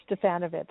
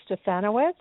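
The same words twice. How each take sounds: First: "Stefanovic" said with a V in the last syllable; "Stefanovic", V sound rather than W; alternative name pronunciation. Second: "Stefanowitz" said with a W in the last syllable; "Stefanowitz", W sound rather than V; name pronunciation. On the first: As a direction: say "Stefanovic" ending in "-vitch". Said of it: "however you'd like". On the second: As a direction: say "Stefanowitz" ending in "-wits". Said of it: "my last name is". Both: Shown as a demonstration.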